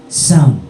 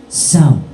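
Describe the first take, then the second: The two takes are said the same way.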